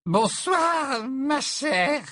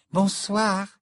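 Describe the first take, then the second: First: Very high, effusive tipsy greeting; tipsy professor. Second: Light, high, polite hello; polite greeting. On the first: Acted. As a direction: greet grandly as a drunk old teacher. Tipsy Trelawney greets Luna. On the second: A narrator's reading. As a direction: greet a teacher courteously. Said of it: "lui dit poliment Luna".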